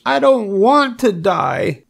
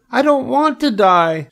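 First: High, drawn-out piglet wail; tearful moan. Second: Very high piglet shriek; screamed protest. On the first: Wilbur bursts into tears, high drawn-out moan. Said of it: "he moaned". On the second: Wilbur throws himself down, high panicked scream. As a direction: squeal it out in panic. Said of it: "screamed Wilbur". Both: A narrator's reading.

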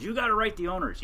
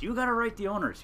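First: Higher-pitched urging friend; quoting a friend. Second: The same urging repeated, still higher; quoting a friend. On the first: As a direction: push him hard to write, in a higher voice. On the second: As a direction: insist again, up high. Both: Retold or imitated. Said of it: "And he, he goes".

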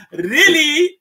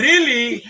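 First: "really" much higher and louder, rising; emphatic really. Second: "really" said higher, falling; earnest really. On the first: Rebbe urging his followers, a loud rising "really". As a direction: push "really" up into a loud, climbing plea. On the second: Rebbe urging his followers, a first pleading "really". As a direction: lean into "really" with a mock-rebbe plea. Rebbe character building emphasis. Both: Acted.

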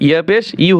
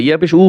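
First: ইউ begun with a y-glide, "yu"; correct ya-pesh. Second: উ as a bare u without a y; wrong ya-pesh. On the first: Teacher correcting learners, ইউ said with a clear y-glide. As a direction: sound the y before the u in ইউ. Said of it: "ইয়া পেশ ইউ হবে". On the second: Teacher showing learners the mistake, উ said as plain u. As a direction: drop the y-glide, leaving only উ. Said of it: "ইয়া পেশ উ হোনা". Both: Shown as a demonstration.

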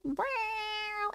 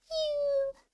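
First: Soft high meow; high mock meow. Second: A higher squeaky meow; second mock meow. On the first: Streamer voicing her cat's first meow, high soft mew. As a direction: meow softly like the cat. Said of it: "sometimes I meow like". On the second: Streamer voicing her cat's other meow, higher squeak. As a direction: meow even higher and thinner. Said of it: "and sometimes I meow like".

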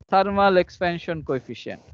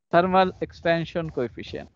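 Both takes have the same delivery.

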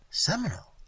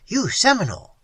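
First: Puzzled. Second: YOU SEMINOLE loud and high, falling hard; emphatic exclamation. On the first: Waitress repeats Tigertail's word back, puzzled. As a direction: echo the word in mild bafflement. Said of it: "I repeated, puzzled". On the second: Tigertail tells the waitress YOU SEMINOLE, emphatic. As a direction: declare YOU SEMINOLE with full force. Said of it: "he said emphatically". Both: A narrator's reading.

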